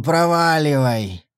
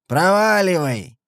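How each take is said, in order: First: Slow growling command; growled. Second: Put-on slurred drunken yell; hiccuping drunk. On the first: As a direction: growl it slowly. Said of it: "прорычал Сэм". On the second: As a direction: shout it like a drunk. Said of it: "пьяно крикнул Сэм". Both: A narrator's reading.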